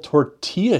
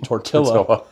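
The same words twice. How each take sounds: First: The double L is said as a Y sound. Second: The double L is said as an L sound.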